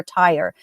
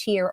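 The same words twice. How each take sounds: First: Tyre said to rhyme with "fire"; Tyre as "tire". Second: Tyre said to rhyme with "deer"; Tyre as "teer". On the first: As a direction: pronounce Tyre like a car tire. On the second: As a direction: pronounce Tyre like the word "tier". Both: Shown as a demonstration. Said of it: "I don't know if it's pronounced".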